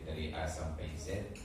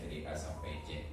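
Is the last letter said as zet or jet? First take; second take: zet; jet. First: The last letter begins with a z sound. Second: The last letter begins with a j sound. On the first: The speaker calls it right. "setelah kita hafal alfabet" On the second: The speaker calls it wrong. "yang sering kita dengar"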